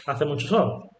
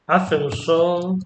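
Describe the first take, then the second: First: Said in the usual way. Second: Slower "Hace un sol" with weight on "Hace"; emphatic un. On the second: Shown as a demonstration. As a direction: drag it out to stress how much sun. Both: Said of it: "For example".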